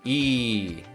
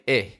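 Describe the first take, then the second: First: The vowel is tense and held long. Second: The vowel is lax and cut short. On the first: The speaker calls it right. "a tense E, and it requires a tense position" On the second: The speaker calls it wrong. "If there isn't enough tension, it's going to sound like eh"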